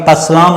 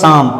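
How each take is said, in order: First: A P sound is pronounced before the S. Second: The word starts directly with the S sound. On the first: The speaker calls it wrong. "ये पसलाम नहीं है" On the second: The speaker calls it right. "इसको पढ़ेंगे शाम"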